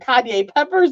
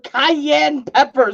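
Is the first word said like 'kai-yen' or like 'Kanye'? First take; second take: Kanye; kai-yen. First: The first word sounds like 'Kanye'. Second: The first word sounds like 'kai-yen'. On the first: The speaker calls it wrong. "I mispronounced them" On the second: The speaker calls it right. "They're cayenne peppers"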